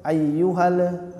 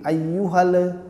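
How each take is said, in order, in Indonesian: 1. L terakhir memiliki pantulan yang bergema. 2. L terakhir memiliki pantulan yang bergema.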